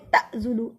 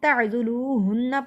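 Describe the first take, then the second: First: The ain sound has a sharp glottal catch. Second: The ain sound is smooth, without a catch. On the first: The speaker calls it wrong. "ऐसे नहीं पढ़ना" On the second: The speaker calls it right. "इस पे झटका नहीं दिया जाता"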